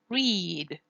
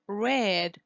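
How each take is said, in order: First: The vowel is long, as in 'reed'. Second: The vowel is short, as in 'red'. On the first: It is the infinitive or present tense. "read here is pronounced with E" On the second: It is the past tense. "but it's pronounced read with E"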